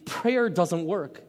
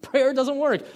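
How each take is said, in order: First: "prayer doesn't work" drawn out slowly and flatly; slow doubter. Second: "Prayer doesn't work" thrown out much higher and louder; exclaiming doubter. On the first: Preacher voicing a doubter concluding "prayer doesn't work", slow and deflated. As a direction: let each word of "prayer doesn't work" drag, deflated. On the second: Preacher voicing a doubter protesting "Prayer doesn't work", high and loud. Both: Retold or imitated. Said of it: "and say".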